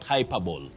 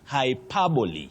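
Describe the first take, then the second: First: The final E is silent. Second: The final E is sounded as ee. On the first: The speaker calls it wrong. "not hyperbole" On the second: The speaker calls it right. "You say hyperbole"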